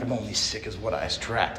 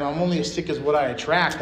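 First: Much softer, scoffing under his breath; mock the counselor's words quietly; muttered mockery. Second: Said in the usual way. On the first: Leaving treatment, scoffing at the counselor, quietly. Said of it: "I'm like". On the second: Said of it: "He's telling me how sick I am".

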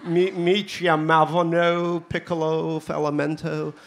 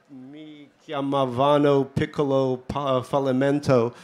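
First: Put-on slow, drawn-out Californian accent. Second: Put-on slow, hammy Italian accent. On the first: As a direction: lay on a laid-back Californian accent. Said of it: "I'm trying to be Californian here". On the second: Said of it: "Do you like my Italian accent?".

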